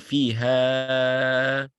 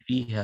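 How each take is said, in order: First: The final vowel is stretched out long. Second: The final vowel is kept short. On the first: The speaker calls it wrong. "let's say you're making it four counts" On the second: The speaker calls it right. "would you just say"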